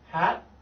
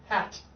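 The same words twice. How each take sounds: First: The final T is stopped, barely heard. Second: The final T is clearly released. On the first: "which is stopped" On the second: "which is articulated"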